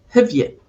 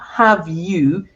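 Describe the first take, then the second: First: The vowel is reduced to a schwa. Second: The vowel is full and strong. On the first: The speaker calls it right. "it's ... I am using our friend, the schwa" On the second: The speaker calls it wrong. "It's not"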